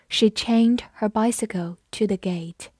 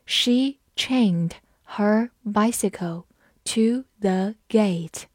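First: Said in the usual way. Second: Slow, careful classroom read-aloud; teacher modelling the sentence slowly. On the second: Shown as a demonstration. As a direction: stretch each word out for learners. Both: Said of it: "好，我们慢读一遍。".

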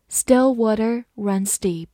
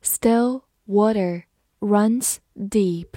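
First: Said in the usual way. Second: Teacher reading slowly. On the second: Shown as a demonstration. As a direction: read it slowly for the class. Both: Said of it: "好，慢慢来读".

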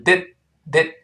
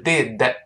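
First: "did" cut short on a silent, held final d; tongue tip stays up on the end of "did", breath held; unreleased d. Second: "did" with a fully popped final d plus a small vowel; released final d. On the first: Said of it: "舌尖顶住，憋住气". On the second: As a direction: let the last d of "did" burst out audibly. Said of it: "不是did". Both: Shown as a demonstration.

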